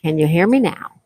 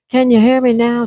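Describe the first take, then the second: First: Said in the usual way. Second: Higher, louder repeat to be heard; louder mic check. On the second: Real, not acted. Streamer retrying the mic for viewers, louder. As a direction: raise your voice to check the mic.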